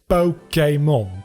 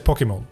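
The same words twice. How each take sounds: First: The middle vowel is an 'ay' sound. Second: The middle vowel is an 'ee' sound. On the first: The speaker calls it right. "It's Pokemon" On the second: The speaker calls it wrong. "I tend to say Pokemon with E rather than A sound"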